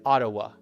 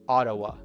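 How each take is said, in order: Both takes have the same delivery.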